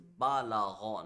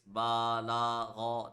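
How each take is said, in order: First: The vowels are kept short. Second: The vowels are drawn out long. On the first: The speaker calls it right. "It is" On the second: The speaker calls it wrong. "we must not stretch the letters like this"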